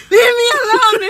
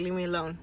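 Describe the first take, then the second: First: Very high, very loud mock yell; imitating a boyfriend's outburst at full volume; exasperated shout. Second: Low brush-off. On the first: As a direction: shout it like someone pestered past patience. Imitates boyfriend snapping when pestered. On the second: Retold or imitated. Imitates boyfriend brushing her off.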